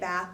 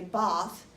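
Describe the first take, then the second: First: It is said with an American accent. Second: It is said with a British accent.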